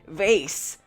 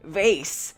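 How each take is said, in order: First: It is said with an American accent. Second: It is said with an American accent.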